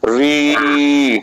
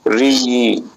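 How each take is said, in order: First: The vowel is held about three times as long. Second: The vowel is held about twice as long. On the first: "इसमें तीन गुना time दिया जाएगा" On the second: "इसे दुगना time देकर बोला जाएगा"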